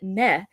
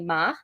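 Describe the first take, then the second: First: The vowel is an 'eh' sound. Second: The vowel is an open 'ah' sound. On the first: "you can pronounce it meh" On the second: "what is normally ma"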